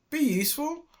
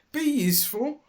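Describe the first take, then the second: First: High rising proud be useful; triumphant. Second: High, louder plaintive be useful. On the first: Dilly proves her worth to robbers, triumphant rising. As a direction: throw it back as proof. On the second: Dilly doubts herself in the shed, plaintive high. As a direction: say it as a doubtful hope. Echoed later triumphantly. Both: A narrator's reading.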